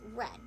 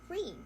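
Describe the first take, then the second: First: The vowel is a short E sound. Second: The vowel is a long E sound. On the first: The action happened in the past. "as a past tense, then it will be uh, pronounced as read" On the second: The action is in the present tense. "Read in present tense sound like read"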